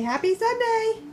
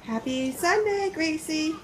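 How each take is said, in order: First: Put-on "Happy Sunday" lifted high for a child; sing-song prompt. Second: Said in the usual way. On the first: Shown as a demonstration. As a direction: coax "Happy Sunday" up brightly. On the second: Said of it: "Say, "Happy Sunday".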